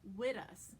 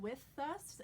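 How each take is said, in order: First: The end of 'with' sounds almost like t. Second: The end of 'with' is a strong th. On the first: It sounds like New York speech. The speaker calls it right. "like a T almost" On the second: It does not sound like New York speech. The speaker calls it wrong. "if you emphasize the th sound, it doesn't sound very New York at all"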